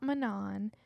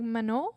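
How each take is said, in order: First: The name is said with an English pronunciation. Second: The name is said with a French pronunciation. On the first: The speaker calls it wrong. "it's not Manon" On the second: The speaker calls it right. "it's like a French pronunciation"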